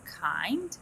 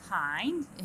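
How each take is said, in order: First: Kind said with a rise; rising kind. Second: Kind said with a fall. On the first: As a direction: end on a rise. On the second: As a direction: drop the pitch. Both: Shown as a demonstration. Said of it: "Falling rising معناها".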